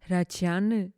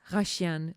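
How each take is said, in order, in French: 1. Le nom se prononce à la manière arménienne. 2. Le nom se prononce à la manière française. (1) "en Arménie, ça prononce" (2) "En France"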